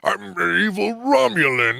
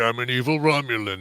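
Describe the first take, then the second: First: The villain voice is big and over the top. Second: The villain voice is small and held back. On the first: "too much. Dial it back" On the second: "No, no, a little more"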